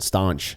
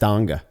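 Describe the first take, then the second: First: It is pronounced in a French-like way. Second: It is pronounced without a French-like sound. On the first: The speaker calls it wrong. "you're pronouncing it uh, like a, like a French person" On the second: The speaker calls it right. "It's it's Stange"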